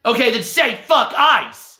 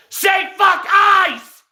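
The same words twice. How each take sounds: First: Retold demand. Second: High, drawn-out mock scream; imitated screaming. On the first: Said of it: "And the guy says". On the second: Retelling a stranger hounding a worker, high drawn-out screaming. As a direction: scream the demand like a fanatic. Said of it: "he's sitting there screaming at the dude".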